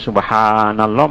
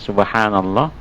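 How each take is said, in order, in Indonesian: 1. Vokal panjang dipanjangkan sangat panjang. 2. Vokal panjang ditahan sedikit lebih lama. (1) "Jangan sampai subhanallah mat arik li sukun, itu kena berlagu" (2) "tekan sedikit"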